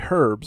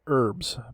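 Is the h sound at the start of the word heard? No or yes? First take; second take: yes; no. First: The word starts with an audible h sound. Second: The word starts with no h sound. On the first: This is how people in England say it. "You're going to say herbs" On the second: This is how Americans say it. "Americans pronounce it herbs"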